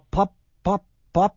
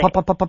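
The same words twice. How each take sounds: First: The pops come slowly with long gaps. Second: The pops come quickly with short gaps. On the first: The car is moving slowly. "if you're going really slow" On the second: The car is moving fast. "if you're going really fast"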